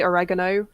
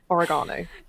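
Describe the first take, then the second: First: It is said with an American pronunciation. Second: It is said with a British pronunciation. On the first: The speaker calls it wrong. "Sometimes I say oregano" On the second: The speaker calls it right. "it's oregano"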